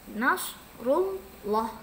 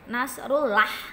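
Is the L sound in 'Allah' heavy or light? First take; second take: heavy; light. First: The L in Allah is thick and heavy. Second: The L in Allah is thin and light. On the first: The speaker calls it right. "harus dibaca tebal" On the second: The speaker calls it wrong. "nggak boleh lagi nanti nasrullah"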